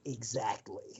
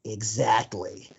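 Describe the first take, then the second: First: Low, much softer deadpan exactly; quoting Serkis. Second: Low, slow, deadpan exactly; a hint of Andy Serkis, slow and low; quoting Serkis. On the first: Retold or imitated. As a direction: mutter it low like the film line. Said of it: "the other one of us goes". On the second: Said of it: "Andy Serkis just goes".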